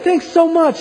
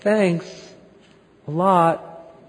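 First: The thanks sounds warm and enthusiastic. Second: The thanks sounds flat and unenthusiastic.

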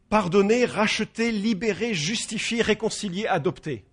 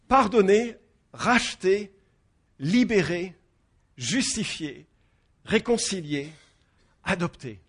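First: The list is said at a quicker pace. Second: The list is said at a slower pace.

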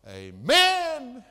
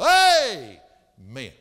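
First: The stress is on the second syllable. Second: The stress is on the first syllable.

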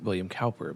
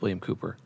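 First: The surname's first vowel sounds like 'cow'. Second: The surname's first vowel sounds like 'coo'. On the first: The speaker calls it wrong. "a lot of people pronounce it William Cowper" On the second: The speaker calls it right. "but it's William Cooper"

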